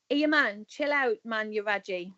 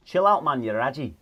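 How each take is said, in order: First: Sunderland example line. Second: Raji said RAH-jee in a bad northern accent with a Scottish twang; a failed go at the Mackem accent, higher; terrible Sunderland attempt. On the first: Shown as a demonstration. Guest shows the host how to use raji, Sunderland accent. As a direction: show how a Mackem would say it, easy and casual. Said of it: "so I'll give you an example". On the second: Host copies the example line in a bad accent with a Scottish twang. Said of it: "That was terrible, wasn't it?".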